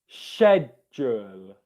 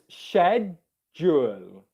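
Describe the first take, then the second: First: The word begins with an sh sound. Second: The same.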